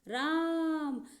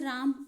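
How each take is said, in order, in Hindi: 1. 'aa' स्वर को लंबा खींचा गया है। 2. 'aa' स्वर की लंबाई सामान्य है।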